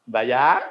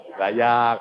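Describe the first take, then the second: First: Sembayang? with a rising question tune. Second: Sembayang. said flat and falling as an answer. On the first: Preacher quizzing the congregation, rising question. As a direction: ask Sembayang? lifting at the end. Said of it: "asking the congregation". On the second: Preacher answering his own question, falling statement. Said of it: "answering himself". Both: Shown as a demonstration.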